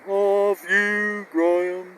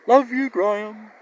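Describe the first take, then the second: First: It is said very slowly and drawn out. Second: It is said at a normal pace.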